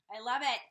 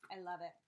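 First: Loud, punchy exclamation; emphatic delight. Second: Said in the usual way. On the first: Real, not acted. Thanking Pamela for her gift, emphatic delight. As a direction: burst out with it much louder.

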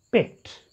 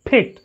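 First: "picked" with hardly any puff on the P; weakly aspirated P. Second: "picked" with a strongly popped P; wrong aspirated P. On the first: Teacher corrects the mistake, light P in "picked". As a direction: say "picked" with a soft-released, unpopped P. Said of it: "You have to talk it as". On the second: Teacher shows students the mistake, aspirated P in "picked". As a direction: puff air on the P of "picked". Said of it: "That's wrong". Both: Shown as a demonstration.

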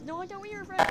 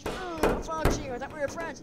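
First: Higher, louder comeback; indignant retort. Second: Raised, loud hurt protest; acted accusation. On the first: Acted. Other toy throwing the accusation back, indignant. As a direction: fire it back in a raised, high voice. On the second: Betrayed toy confronting a friend, indignant. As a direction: throw the accusation out, voice pitched up.

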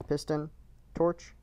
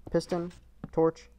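No difference in how they are said.

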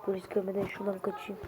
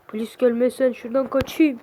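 First: Low, very soft, quick mutter; hushed aside. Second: Said in the usual way. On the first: Acted. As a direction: mutter the escape plan to yourself. Shooter plans escape, two takes.

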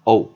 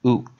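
First: Oop pronounced "ope", with an "oh" vowel; rare reading. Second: Oop with a long "oo" and closing p; usual OOP reading. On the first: Teacher shows the less common reading, oop as "ope". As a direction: say oop like the end of hope. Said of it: "我们比较少会念成". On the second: Teacher reminds students how OOP is read, oop with "oo". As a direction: say oop as in loop, set apart by a pause. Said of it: "通常我们都念". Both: Shown as a demonstration.

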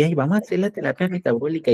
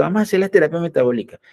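First: Higher, airy mock-doctor sigh; a doctor suddenly won over, lightly mocked; mocking converted doctor. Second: Higher, faster mock chorus; all the doctors chiming in eagerly. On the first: One doctor now embraces the therapy, in a higher mock voice. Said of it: "entonces ahí sí". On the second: All doctors jump on the bandwagon, in a fast, higher mock chorus. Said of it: "y todos los médicos".

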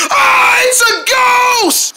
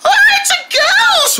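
First: High, loud panicked shout; frightened shout. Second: Very high, slow drawn-out squeal; squeaky shriek. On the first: Dog spotting the ghost, shouting high and loud in fright. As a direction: yell it in fright, much higher and louder. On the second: Dog repeating the ghost alarm, very high and slow. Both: Acted.

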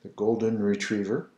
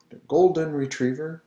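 First: Said in the usual way. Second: Golden Retriever with French R's. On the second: Shown as a demonstration. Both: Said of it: "Comment dit-on en français?".

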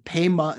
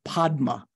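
First: "Pema" as pay-ma, d silent; Tibetan pronunciation. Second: "Padma" as pahd-ma, d sounded; full d pronunciation. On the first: Teacher illustrating the changed vowel, Tibetan pronunciation. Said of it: "like saying Pema instead of Padma". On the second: Teacher contrasting it with Tibetan speech, d sounded. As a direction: keep the d and open ah in "Padma". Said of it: "instead of Padma". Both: Shown as a demonstration.

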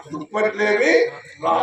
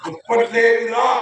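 First: Rising దుప్పట్లేవి, pause, short రా; separated words. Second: Slow దుప్పట్లేవి రా as one word, rising; words run together. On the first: Man tries the corrected line, pausing between దుప్పట్లేవి and రా. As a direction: break clearly between దుప్పట్లేవి and రా. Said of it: "దుప్పట్లేవి రా, లోనికి రా". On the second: Man repeats misheard line, దుప్పట్లేవి రా joined with rising end. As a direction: glide from దుప్పట్లేవి into రా without a break. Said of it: "కాదు మా". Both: Shown as a demonstration.

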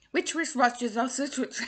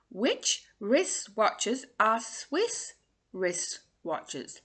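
First: Quick attempt. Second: Very slow, drawn out; slow tongue twister. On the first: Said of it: "you can have a laugh at me". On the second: Coach reading the twister slowly before the fast try. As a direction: take it word by word. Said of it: "Try saying that fast". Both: Shown as a demonstration.

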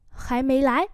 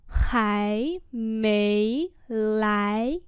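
First: Said in the usual way. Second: Three long rising syllables. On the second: Shown as a demonstration. Teacher repeats phrase slowly.

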